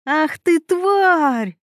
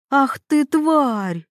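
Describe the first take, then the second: First: Higher and angrier, yell the insult. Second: Mock shriek, a little higher, squealing the insult out; a lightly voiced rival who shrieks with rage. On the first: Acted. Mila yells at Veronika, who is pulling her hair. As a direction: roar it out in rage as she is grabbed by the hair. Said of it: "заорала Мила". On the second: Veronika snaps at Mila who talks back, with a mild mock shriek. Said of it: "взвизгнула она".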